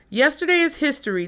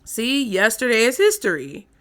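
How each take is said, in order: First: Put-on bright, quick Valley girl lilt; ditzy Valley girl delivery. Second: Said in the usual way. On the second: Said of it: "plain retake before rant".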